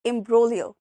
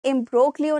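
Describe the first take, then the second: First: The G sound is silent in the word. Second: The G sound is pronounced in the word. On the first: The speaker calls it right. "यहाँ पर G silent है" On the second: The speaker calls it wrong. "इसको हम imbroglio नहीं बोलेंगे"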